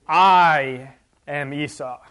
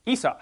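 First: "I" stretched long and loud in "I am Esau"; emphatic. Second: Said in the usual way. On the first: Acted. Teacher shows Jacob overdoing "I am Esau", slow and emphatic. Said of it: "in the Hebrew it's emphatic". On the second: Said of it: "he should have just said".

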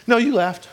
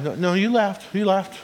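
First: Higher, teasing no, you laughed; higher mock-knowing God voice; playful God insisting. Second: Light teasing sing-song insistence; a hint of a playful knowing God; playful God insisting. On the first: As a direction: tease her, grinning, caught her out. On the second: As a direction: tease her gently, you know she laughed. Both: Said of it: "this is a tone of voice version".

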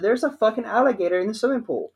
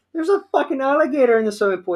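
First: High, fast repeated blurt; mock panic. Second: High, fast frantic blurt; panicked report. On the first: Repeating the alligator news to dad, a high, fast urgent blurt. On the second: Retold or imitated. Telling dad about the alligator in the pool, a high, fast panicked blurt.

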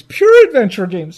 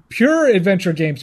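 First: "Pure adventure games" louder, with "Pure" punched; mocking emphasis. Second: Said in the usual way. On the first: Shown as a demonstration. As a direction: hit "Pure" hard in disbelief. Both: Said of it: "repeats the phrase louder".

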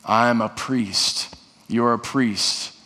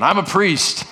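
First: Slow declaration. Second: Raised declaration. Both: Shown as a demonstration. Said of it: "Say it again".

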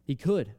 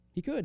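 First: Said in the usual way. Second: High rising disbelief on "could"; a startled high question on "He could". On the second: Shown as a demonstration. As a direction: lift "could" sharply up as if amazed. Pastor repeats with sudden rise.

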